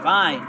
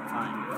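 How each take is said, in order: First: Loud fine. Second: Softer, lower sulky fine; muttered fine. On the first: Player told to stay, snapping back loudly. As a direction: throw out Fine. in exasperation. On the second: Player told to stay, giving in quietly. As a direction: grumble Fine. under your breath. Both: Real, not acted. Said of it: "Okay, I won't leave then".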